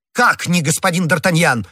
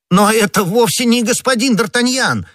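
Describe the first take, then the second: First: Higher, incredulous question; mildly cried-out disbelief; crying out in turn. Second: High-pitched astonished protest; startled, much higher exclamation; crying out. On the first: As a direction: demand it back in astonishment. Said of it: "в свою очередь закричал комиссар". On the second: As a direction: cry out that they have the wrong man. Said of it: "вскричал Бонасье". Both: A narrator's reading.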